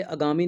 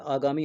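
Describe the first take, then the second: First: आगामी said as a-gaamee; wrong short vowel. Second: आगामी with a long 'aa' at the start; correct long vowel. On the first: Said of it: "आगामी नहीं होता है". (आगामी को 'अगामी' बोलकर) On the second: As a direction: open आगामी as aa-gaamee. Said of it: "आगामी होता है". (आगामी, शुरू में लंबा 'आ') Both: Shown as a demonstration.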